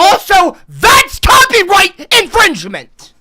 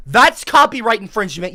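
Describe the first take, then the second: First: High, loud, drawn-out objection; outraged shout. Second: Said in the usual way. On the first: Real, not acted. Streamer accusing Joe over his video, outraged shout. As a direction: yell the accusation slowly and at full volume.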